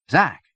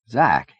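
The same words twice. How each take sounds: First: Sharp, high, loud shout of his name. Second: Calling his name loudly; urgent call to wake him. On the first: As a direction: yell to jolt him awake. Friend not answering, calls again. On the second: Trying to rouse fading friend. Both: Acted.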